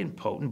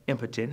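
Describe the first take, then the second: First: "impotent" as im-POH-tent; stressed second syllable pronunciation. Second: "impotent" as IM-puh-tent; stressed first syllable pronunciation. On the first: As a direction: say "impotent" with a long, stressed o in the middle. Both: Shown as a demonstration. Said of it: "depending on how you pronounce it".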